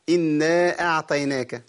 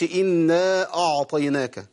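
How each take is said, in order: First: Slow إنا أعطيناك with ط lightened toward ت; thin, slack ط in أعطيناك; ta weakened toward t. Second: Slow إنا أعطيناك with ع thickened; over-heavy ع in أعطيناك; wrongly heavy ayn. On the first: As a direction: soften the ط of أعطيناك into ت. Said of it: "بقرب الطاء من التاء". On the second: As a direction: darken the ع in أعطيناك. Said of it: "أو في الأولى بفخم العين". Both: Shown as a demonstration.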